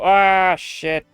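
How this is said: It sounds calm, like a minor annoyance.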